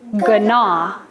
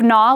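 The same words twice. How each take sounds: First: The word begins with a G before the N. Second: The word begins with a plain N sound. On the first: An older way of saying it. "we used to say gnaw" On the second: The present-day way of saying it. "Instead of gnaw"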